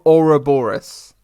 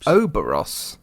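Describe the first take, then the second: First: Ouroboros said slowly as or-uh-BOR-os; Ouroboros, each syllable pronounced; careful full name. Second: Oberos said as OH-ber-os, middle syllable dropped; Oberos, clipped to three syllables; Oberos, said wrongly as OH-buh-ros; mispronounced name. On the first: Shown as a demonstration. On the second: Real, not acted. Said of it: "O-, Ouroboros".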